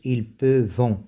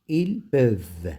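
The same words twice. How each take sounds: First: The verb ending is sounded as a nasal vowel. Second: The verb ending is silent, not sounded at all. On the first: The speaker calls it wrong. "ils lisent ce E N T avec on. Ils lisent ils peuvent non" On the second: The speaker calls it right. "cette E N T ne se lit pas"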